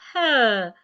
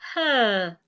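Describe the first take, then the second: No difference in how they are said.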